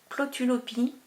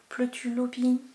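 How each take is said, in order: First: The first vowel is a plain o sound. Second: The first vowel is not a plain o. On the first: "je pense que ça se dit pas comme ça" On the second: "ça doit pas se dire O. Peut-être Plotulopie"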